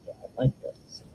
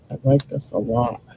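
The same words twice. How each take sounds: First: Soft unvoiced whisper of delight; whispered admiration. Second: Said in the usual way. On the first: Real, not acted. Crafter admiring her work, whispering to herself. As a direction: breathe it out to herself, pleased.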